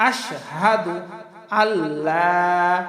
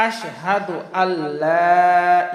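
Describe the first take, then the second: The two takes are said the same way.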